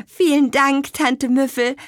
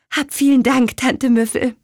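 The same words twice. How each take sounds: First: High, hurried bright thank-you, louder; quick thanks. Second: High, louder heartfelt thank-you; eager thanks. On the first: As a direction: rush out the thanks. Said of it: "sagte Petronella schnell". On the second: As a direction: thank her warmly and brightly. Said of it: "sagte Petronella". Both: A narrator's reading.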